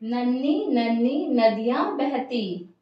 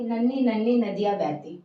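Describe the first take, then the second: First: It is read with lively rhythm and feeling. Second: It is read plainly without rhythm or feeling. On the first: The speaker calls it right. "एक लय के साथ, एक सौंदर्य के साथ, एक भाव के साथ" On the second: The speaker calls it wrong. "अगर मैं इसको ऐसे पढ़ती"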